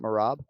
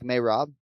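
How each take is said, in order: First: The first syllable sounds like 'ma'. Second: The first syllable sounds like 'may'. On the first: The speaker calls it wrong. "and not Marab" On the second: The speaker calls it right. "doesn't it sound like Mayrob"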